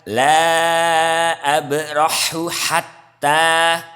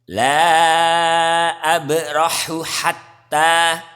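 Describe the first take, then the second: Both takes have the same delivery.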